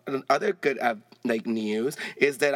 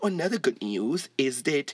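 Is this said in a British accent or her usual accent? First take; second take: usual; British. First: It is said in her usual accent. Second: It is said in a put-on British accent. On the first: "I said I was going to say it in English accent" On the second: "let me try it again"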